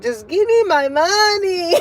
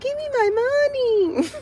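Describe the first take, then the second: First: It is said in her normal adult voice. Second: It is said in the niece's tiny voice.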